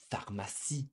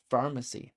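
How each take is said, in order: First: Pharmacie as far-ma-SEE, French r; French pronunciation. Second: Pharmacy as FAR-muh-see, stressed first; pharmacy with English r and front stress; English pronunciation. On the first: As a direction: say pharmacie the French way, stressed last. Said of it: "would be the same". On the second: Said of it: "thinking of another word". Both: Shown as a demonstration.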